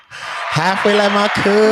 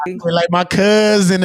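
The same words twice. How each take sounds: First: Slow drawn-out echo. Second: Said in the usual way. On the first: Shown as a demonstration. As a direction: drag out "Halfway like my cousin" slowly, mocking.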